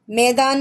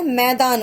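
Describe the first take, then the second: First: मैदान said with a closed e, like मेदान; wrong vowel. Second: मैदान said with the open ai sound, मै-दान; correct vowel. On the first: Teacher showing kids the wrong reading, closed e in मैदान. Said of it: "मैदान नहीं होता है". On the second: Teacher showing kids the right reading, open ai in मैदान. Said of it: "मैदान होता है". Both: Shown as a demonstration.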